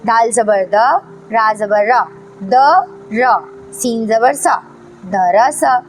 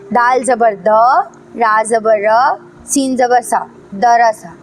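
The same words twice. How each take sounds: First: द, र repeated together before सीन ज़बर सा, then दरसा; joined step by step. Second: दाल ज़बर द, रा ज़बर र, सीन ज़बर सा spelled in a row, दरसा joined only at the end; spelled straight through. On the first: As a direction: build दरसा up in stages, pausing between pieces. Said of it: "इस तरह पढ़ना है". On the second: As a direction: spell each letter, join दरसा last. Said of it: "ऐसे नहीं पढ़ना है". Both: Shown as a demonstration.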